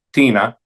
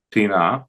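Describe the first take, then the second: First: "tina" as TI-na, falling; stress on first syllable. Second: "tina" as ti-NA, rising; stress on last syllable. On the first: Teacher reciting neuter interrogatives, TI-na stressed up front. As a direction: hit the TI of "tina", let na fall. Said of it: "la primera sílaba". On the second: Teacher reciting neuter indefinites, ti-NA stressed last. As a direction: land on the NA of "tina". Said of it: "en la última sílaba". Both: Shown as a demonstration.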